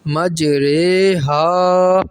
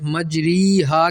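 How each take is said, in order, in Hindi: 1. r के बाद का स्वर 'ay' जैसा बोला जाता है। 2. r के बाद का स्वर 'ee' जैसा बोला जाता है। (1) "इमाले वाली रा को री नहीं पढ़ा जाएगा बल्कि रे पढ़ा जाएगा" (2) "मजरी हा के बजाय"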